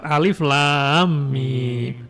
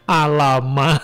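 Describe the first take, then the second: First: Each letter is spoken separately by its name. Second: The letters are blended together into one word. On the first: The speaker calls it right. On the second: The speaker calls it wrong.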